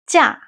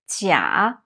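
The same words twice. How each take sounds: First: The syllable is said with a falling tone. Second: The syllable is said with a low tone. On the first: The word means holiday or vacation. "when it means holiday or vacation, it's a falling tone, the fourth tone is 假" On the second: The word means fake or false. "When it means fake, false, it's a third tone. A low tone is 假"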